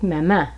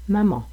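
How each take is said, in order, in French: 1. Il est prononcé avec un accent du français québécois. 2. Il est prononcé avec un accent du français de France. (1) "Au Québec" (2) "en France, vous entendriez probablement plus la prononciation maman"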